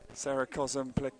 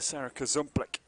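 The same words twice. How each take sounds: First: The surname is said evenly with no stress. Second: One syllable of the surname is stressed. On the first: The speaker calls it right. "it is just straight through with a no emphasis" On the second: The speaker calls it wrong. "I did her injustice there"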